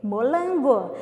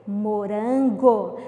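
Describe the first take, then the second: First: Molango with an L in place of the R; Cebolinha-style L for R. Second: Morango with a clear R sound; correct R. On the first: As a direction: say Molango with the R swapped to L. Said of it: "Só que ele pediu o quê?". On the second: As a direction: say Morango slowly with the R. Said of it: "Qual era o sabor que ele queria?". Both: Shown as a demonstration.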